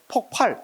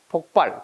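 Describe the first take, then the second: First: The second syllable starts with an aspirated consonant. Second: The second syllable starts with an unaspirated consonant. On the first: The speaker calls it wrong. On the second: The speaker calls it right.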